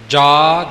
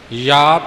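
First: The word begins with a 'j' sound. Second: The word begins with a 'y' sound. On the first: The speaker calls it wrong. "ਜਾ ਜੱਜੇ ਦੇ ਨਾਲ ਨਹੀਂ ਕਹਿਣਾ" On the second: The speaker calls it right. "ਯਾ ਇੱਥੇ ਯਯੇ ਦਾ ਪੂਰਾ ਉਚਾਰਨ ਰੱਖਣਾ"

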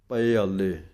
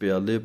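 First: The two words are said as separate parts. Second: The two words run together as one word. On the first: The speaker calls it right. "ਪੱਪੇ ਨੂੰ ਥੋੜ੍ਹਾ ਜਿਹਾ ਸੰਬੰਧਕ ਕਰਕੇ ਬੋਲੋ" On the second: The speaker calls it wrong. "ਇਹਨੂੰ ਪਿਆਲੇ ਪੜ ਜਾਂਦੇ ਹਨ"

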